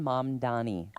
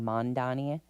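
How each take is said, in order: First: The first syllable is said with an m ending. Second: The first syllable is said with an n ending. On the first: The speaker calls it right. "M A M, so it's mom" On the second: The speaker calls it wrong. "people are saying Mondani"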